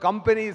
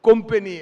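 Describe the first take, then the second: First: The first vowel is an open a sound. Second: The first vowel is a rounded o sound.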